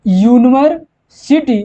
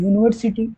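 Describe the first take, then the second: First: "यूनिवर्सिटी" said slowly, each syllable drawn out, starting with a "यू" sound; slow spelled-out university. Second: Said in the usual way. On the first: Shown as a demonstration. Teacher demonstrating the word for students, slow and clear. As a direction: stretch out "यूनिवर्सिटी" so the "यू" opening is clear. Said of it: "क्या?". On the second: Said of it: "तो यहाँ पे देखिए".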